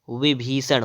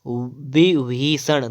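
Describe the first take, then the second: First: विभीषण starting with v; correct pronunciation. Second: विभीषण starting with b, slowly; slow विभीषण on closed-lip b; wrong pronunciation. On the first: Teacher correcting, विभीषण with v. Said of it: "विभीषण होता है". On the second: Teacher showing the error, slow विभीषण with b. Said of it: "नहीं होता है". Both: Shown as a demonstration.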